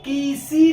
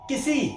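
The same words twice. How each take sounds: First: The first vowel is held long. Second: The first vowel is short, the second long. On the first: The speaker calls it wrong. "तो किसी नहीं होगा वो" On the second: The speaker calls it right. "का पे छोटी, सा पे बड़ी"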